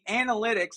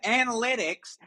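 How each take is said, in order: First: The opening 'anal' part is heavily emphasized. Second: The word is said with ordinary stress.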